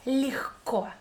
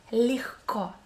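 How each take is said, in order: First: Легко, lehko; muffled h. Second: Легко breathed out as lehko; whispered h. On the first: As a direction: demonstrate легко with the h sound. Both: Shown as a demonstration. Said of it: "Repeat with me".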